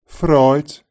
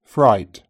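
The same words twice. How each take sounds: First: Fright said like "froit" with a tapped r; tapped r, oi vowel in Fright; Brummie Fright. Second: Said in the usual way. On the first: Shown as a demonstration. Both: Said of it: "Brummies may tap their R sounds".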